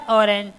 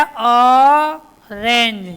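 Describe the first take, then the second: First: Said in the usual way. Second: orange stretched out very slowly and loudly, every sound drawn out; slow drawn-out demo. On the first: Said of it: "क्या आया?". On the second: Shown as a demonstration. Teacher modelling orange for young pupils, slow and loud. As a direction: draw out orange syllable by syllable for the class. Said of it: "ओ पर क्या आया?".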